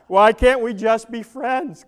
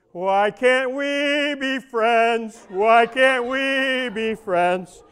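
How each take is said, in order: First: Said in the usual way. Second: Slow, sung crooning line. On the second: Pretend. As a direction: croon it like the old song.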